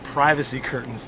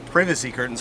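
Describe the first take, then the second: First: Privacy is said in a plain, everyday way. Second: Privacy is said in a posh, upper-class way. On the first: The speaker calls it wrong. "They're not privacy curtains" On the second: The speaker calls it right. "because it's posh"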